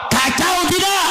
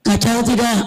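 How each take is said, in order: First: Rousing shout. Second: Said in the usual way. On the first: Acted. Preacher shouting the question back at the crowd. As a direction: shout it at the congregation.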